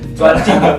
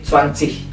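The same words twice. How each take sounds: First: The final g is said as a hard g. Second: The final g sounds like a soft h. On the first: The speaker calls it wrong. "Kalau kalian dibaca, kalian pasti disebut orang Vietnam" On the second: The speaker calls it right. "G-nya tidak dibaca jadi zwanzig"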